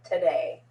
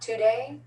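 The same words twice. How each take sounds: First: The first vowel is a reduced schwa sound. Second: The first vowel is a full O sound. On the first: The speaker calls it right. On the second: The speaker calls it wrong.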